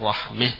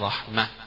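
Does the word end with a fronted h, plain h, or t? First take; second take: fronted h; plain h. First: The final vowel is fronted before the h. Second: The word ends with an h sound. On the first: "يميل فيها" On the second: "يقفون بالهاء"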